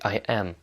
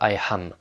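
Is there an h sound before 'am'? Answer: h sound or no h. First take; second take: no h; h sound. First: Am begins with a vowel, no h sound. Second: Am begins with an added h sound. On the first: The speaker calls it right. "C'est I am" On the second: The speaker calls it wrong. "C'est pas I am. Il y en a qui le prononcent quand il n'y en a pas le H"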